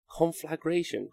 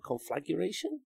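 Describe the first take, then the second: First: Said in the usual way. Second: Conflagration with a stray "yuh" after "flag"; mispronounced with added U. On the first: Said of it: "I say conflag-, conflagration wrong". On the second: Shown as a demonstration. Streamer testing a word they say wrong, Conflagration with an extra U. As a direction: try Conflagration softly, a U slipped in, questioning. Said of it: "There's no U".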